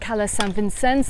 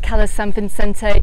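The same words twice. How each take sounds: First: The name is pronounced the Catalan way. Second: The name is pronounced a non-Catalan way. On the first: "that's the Catalan pronunciation" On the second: "I call it"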